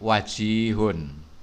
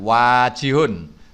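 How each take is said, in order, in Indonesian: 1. Vokal pertama pendek, tidak seperti fa'ilun. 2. Vokal pertama panjang, seperti pola fa'ilun. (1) "tapi wajihun" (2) "bukan wajihun"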